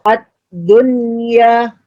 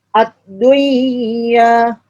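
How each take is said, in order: First: The n sound is pronounced clearly before y. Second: The n sound merges into the following y. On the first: The speaker calls it right. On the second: The speaker calls it wrong.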